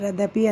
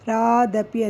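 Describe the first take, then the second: First: The first vowel is cut short. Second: The first vowel is drawn out long. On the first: The speaker calls it wrong. "ರದಪಿ ಅಂತೀರಾ" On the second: The speaker calls it right. "ರಾಗ means ಅದು ದೀರ್ಘಗಳು"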